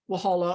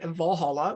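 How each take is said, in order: First: The word begins with a W sound. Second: The word begins with a V sound. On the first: This is how most people say the name. "most people call it Walhalla" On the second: This is how the speaker normally says the name. "which is what I would normally pronounce it at"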